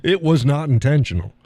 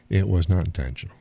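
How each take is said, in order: First: Amused protest. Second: Said in the usual way. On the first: Real, not acted.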